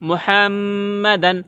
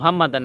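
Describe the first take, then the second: First: The final N is held with nasal resonance. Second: The final N is short and plain. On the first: The speaker calls it right. "গুন্না করতে হবে" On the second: The speaker calls it wrong. "মুহাম্মাদান না"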